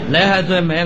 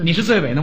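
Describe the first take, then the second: First: It is said with a Cantonese accent. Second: It is said in standard Mandarin pronunciation.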